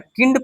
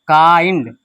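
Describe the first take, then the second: First: The vowel is a short 'i' sound. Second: The vowel is a long 'eye' sound. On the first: The speaker calls it wrong. "किंड पढ़ा है या काइंड पढ़ा है?" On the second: The speaker calls it right. "काइंड पढ़ा है ना।"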